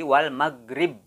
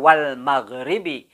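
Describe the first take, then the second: First: The phrase ends on a stopped consonant. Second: The phrase ends with a final vowel sound. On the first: The reader stops at this word. "namun berubah menjadi wal maghrib" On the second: The reading continues without stopping. "tidak dibaca lagi secara wal maghribi"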